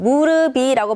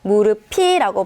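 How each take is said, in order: First: The consonant before the last vowel is plain. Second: The consonant before the last vowel is aspirated. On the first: The speaker calls it wrong. "발음하는 것이 아니라" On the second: The speaker calls it right. "발음해야 맞겠죠"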